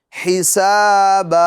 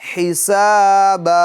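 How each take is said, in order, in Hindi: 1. शब्द का अंत लंबे a की ध्वनि से होता है। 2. शब्द का अंत लंबे a की ध्वनि से होता है।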